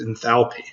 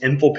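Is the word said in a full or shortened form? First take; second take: full; shortened. First: The word is said in its full form. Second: The word is said in a shortened form. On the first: This is the proper way to say it. The speaker calls it right. "the correct pronunciation is enthalpy" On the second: This is the common, easier way to say it. The speaker calls it wrong. "usually people shorten it to just enthalpy"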